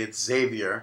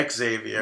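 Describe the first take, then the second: First: "Xavier" said ZAY-vee-er; Xavier without the "ex". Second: "Xavier" said ex-ZAY-vee-er; Xavier with the X sounded out; Xavier with a spoken X. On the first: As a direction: start Xavier with Z, as the correct form. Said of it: "pronounce it properly". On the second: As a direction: lead Xavier with a clear "ex". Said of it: "Justin Roberts said Xavier". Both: Shown as a demonstration.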